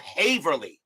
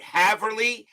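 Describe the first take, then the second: First: The first vowel is a long A, as in hay. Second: The first vowel is a short A, as in have. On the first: "As in hay. Long A. So Haverly" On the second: "as in have"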